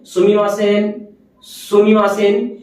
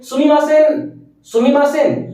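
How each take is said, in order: First: It is said calmly and softly, apologetically. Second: It is said briskly, to get attention.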